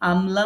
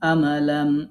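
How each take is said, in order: First: The m and l join with no vowel between. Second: An extra vowel breaks up the m and l. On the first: The speaker calls it right. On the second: The speaker calls it wrong.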